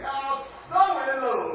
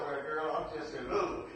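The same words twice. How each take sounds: First: "so" stretched slowly and said louder in "I'm so in love"; stress on so. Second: Said in the usual way. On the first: Shown as a demonstration. Preacher shows how lovers really talk: slow, loud stress on so. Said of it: "You gonna say". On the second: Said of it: "You gonna say, "I'm so in love".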